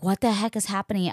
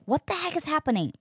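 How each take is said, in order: First: Said in the usual way. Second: High, fast baffled cry; exasperated at herself in the stall; what is going on, high and quick; frustrated. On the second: Retold or imitated.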